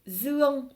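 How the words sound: The word begins with a 'z' sound. This is the northern pronunciation. "Comme je suis du nord, je le prononce Zuong"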